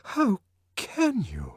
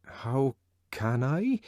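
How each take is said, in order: First: High, slow, shocked plea; amazed distress. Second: Meditative. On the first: Lenina shocked at Bernard, high amazed distress. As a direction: gasp it out, shocked and hurt. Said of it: "in a voice of amazed distress". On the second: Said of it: "he repeated meditatively". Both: A narrator's reading.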